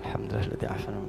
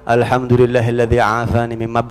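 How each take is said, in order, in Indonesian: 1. Dibaca pelan, lirih. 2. Dibaca keras, supaya orang lain bisa dengar. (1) "kalau musibah dunia bacanya pelan" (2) "kalau musibahnya musibah agama, kencengin"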